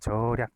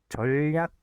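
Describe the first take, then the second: First: The syllables join with no inserted sound. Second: An extra l sound is inserted between the syllables. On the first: The speaker calls it right. "그냥 절약으로만 발음이 된다" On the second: The speaker calls it wrong. "이렇게 안 되고"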